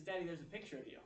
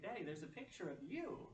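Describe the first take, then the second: First: Lightly voiced small child, higher; a hint of a young child; little son's voice. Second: Higher child imitation, swooping up on "you"; retold child's emphatic repeat; insistent little son. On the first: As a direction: imitate a child pointing something out to dad. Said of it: "He says". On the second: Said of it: "he's emphatically pointing".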